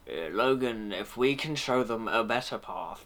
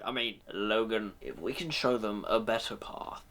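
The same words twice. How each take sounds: First: Lower, grand Ian McKellen-ish voice; a hint of a theatrical Ian McKellen; Ian McKellen impression. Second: Lower, dignified Patrick Stewart Professor X; Patrick Stewart impression. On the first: Reviewer's second try drifts into Ian McKellen, lower theatrical voice. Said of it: "I'm going more Ian McKellen then". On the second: Reviewer shows how Professor X should sound, lower dignified Patrick Stewart voice. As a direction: speak with grave, measured gravitas. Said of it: "compare him to ... Sir Patrick Stewart".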